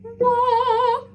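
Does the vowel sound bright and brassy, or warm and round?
warm. The vowel sounds warm, tall and round. "gives warmth and roundness to the vowel"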